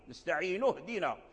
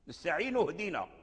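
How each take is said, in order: No difference in how they are said.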